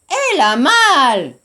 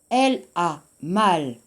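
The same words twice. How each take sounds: First: It has a Gyeongsang Korean dialect melody. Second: It has a standard French melody. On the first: The speaker calls it wrong. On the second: The speaker calls it right.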